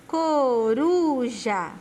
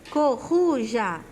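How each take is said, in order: First: The R is said with a soft tap. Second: The R is said with a strong sound. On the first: The speaker calls it right. "O som dele é fraco" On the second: The speaker calls it wrong. "Se o som dele fosse forte, ficaria"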